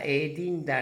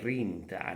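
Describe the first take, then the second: First: The word begins with a D sound. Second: The word begins with an R sound. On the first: "you can use dint" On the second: "It's much more popular to use rint"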